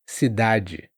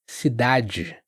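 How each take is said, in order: First: The last d is like an English j. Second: The last d is like an English j.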